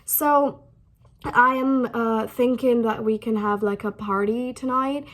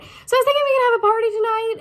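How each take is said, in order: First: It is said slowly with hesitations. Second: It is said quickly without hesitations.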